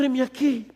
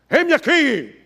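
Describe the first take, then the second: First: It is said in a humble, pleading tone. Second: It is said in a bold, heroic tone.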